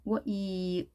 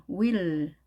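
First: "will" in separate sounds, w-ee-l; sounded out. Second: Said in the usual way. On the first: Shown as a demonstration. Teacher demonstrates spelling to learners, "will" sounded out. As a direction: break "will" apart sound by sound. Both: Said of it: "네, 스펠링 이".

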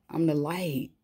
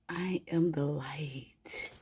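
First: Said in the usual way. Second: Slow, reverent whisper; awed whisper. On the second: Real, not acted. Reader to viewers, slowly whispering her realization. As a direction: breathe it out slowly, in awe. Repeats her line in awe.

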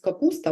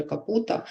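First: Said in the usual way. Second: «капута» with the с dropped; «капута» childish cluster dropped; child's slip. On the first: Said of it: "замість". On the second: Shown as a demonstration. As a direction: say «капута» without the s. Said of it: "вона скаже".

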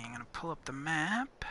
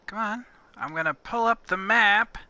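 First: Fast, soft aside to herself; quick mutter. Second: Higher and louder, exasperated; impatient. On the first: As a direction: mumble it quickly under her breath. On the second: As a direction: push it out, fed up with waiting. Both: Real, not acted.

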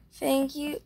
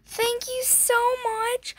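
First: Said in the usual way. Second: Much higher, slow, gushing thanks; high squeal. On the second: Real, not acted. Thanking the friend for the gift, squealing high. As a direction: squeal your thanks, overwhelmed.

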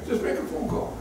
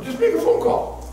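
First: Soft, breathy repeat; near-whisper urging. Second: Very high urging; high exhortation. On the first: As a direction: drop to a hush. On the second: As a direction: cry it out to them. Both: Acted. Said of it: "repeat contrast".

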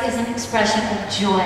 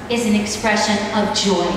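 No difference in how they are said.

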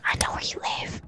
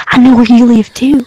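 First: Softer, eerie hushed whisper; creepy whisper. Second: Louder, a sudden menacing burst; loud threat. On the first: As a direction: drop to a menacing whisper. Same threat, now whispered. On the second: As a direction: shout the threat to startle. Threat repeated, first take loud. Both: Pretend.

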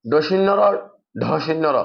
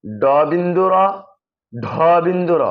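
First: ড শূন্য র slurred with shunno in the middle; quick folk names with shinno for শূন্য; common mispronunciation. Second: ড বিন্দু র with bindu in the middle, each part spaced; drawn-out ড, then বিন্দু র; correct letter names. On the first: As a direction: say ড শূন্য র and ঢ শূন্য র run together. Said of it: "এই বর্ণকে উচ্চারণ করে". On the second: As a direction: say ঢ বিন্দু র carefully with aspirated dh. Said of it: "এটা হচ্ছে যে কি". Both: Shown as a demonstration.

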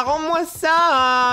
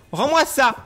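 First: Loud, high and very slow; drawn-out yell. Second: Loud, high demand; angry shout. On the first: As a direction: stretch out the plea. Dernier appel étiré. (crier en traînant) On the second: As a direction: snap it back at him. Ordre répété. (crier rends-moi ça) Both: Real, not acted.

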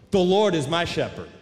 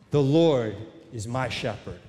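First: Firm, pushed-out declaration like a challenge; answering a rival with a defiant boast; statement of attack. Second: Low, even, matter-of-fact declaration; statement of fact. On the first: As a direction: throw it back as a defiant retort. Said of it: "read this as a statement of attack". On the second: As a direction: state it calmly as plain fact. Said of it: "read this as a statement of fact". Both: Shown as a demonstration.

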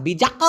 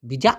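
First: বিজাক with the final k pressed out hard; বিজাক ending in a strong, clear k sound. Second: বিজা with the final k swallowed almost to nothing; বিজা said with a barely audible final k; soft final k. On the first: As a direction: land firmly on the k of বিজাক. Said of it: "ঠেসে ধরতে হবে এমন না". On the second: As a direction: let the k of বিজা fade out unreleased. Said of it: "খুবই অস্পষ্ট করে উচ্চারণ করে". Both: Shown as a demonstration.

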